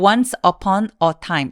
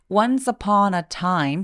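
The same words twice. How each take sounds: First: The words are split apart with small breaks. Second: The words run together without any breaks. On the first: The speaker calls it wrong. "이렇게 나누어 읽으시면 훨씬 소리가 조금 뚝뚝뚝 끊어지는 느낌" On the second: The speaker calls it right. "쭉 이어서 말해주시는 게 필요하니까요"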